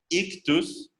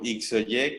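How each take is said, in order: First: The word is read as one Greek word. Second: The letters are read as separate Latin letters. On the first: The speaker calls it right. "en realidad su pronunciación sería Ictus" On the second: The speaker calls it wrong. "que algunos traducen como Ixoye, que nada tiene que ver"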